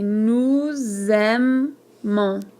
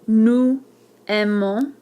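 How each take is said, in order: First: A z sound links the two words. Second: The words are separate, with no z sound. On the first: The speaker calls it right. "we say" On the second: The speaker calls it wrong. "instead of"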